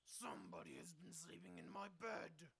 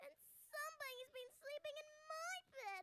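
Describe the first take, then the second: First: It is said in a big, growly voice. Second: It is said in a loud, squeaky voice.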